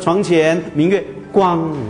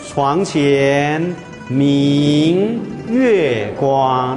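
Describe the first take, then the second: First: It is read flatly without those word groupings. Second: It is read in groups with 明 set apart. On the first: The speaker calls it wrong. "你不要说床前明月光，好了，好难听啊" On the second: The speaker calls it right. "那个明字生动在这边啊"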